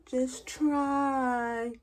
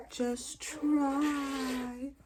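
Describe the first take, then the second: First: High far mock nurse voice; mimicking the nurse, high and dismissive. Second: High, softer mock nurse echo; mimicking the nurse again, high and softer. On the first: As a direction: parody the nurse's dismissive line. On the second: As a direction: repeat her line mockingly, quieter. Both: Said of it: "I never forget that".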